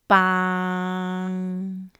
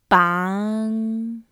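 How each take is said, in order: First: The syllable has a low level pitch. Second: The syllable has a mid rising pitch. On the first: It means a stick. "Low pitch" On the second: It means to tie up. "Mid rising pitch"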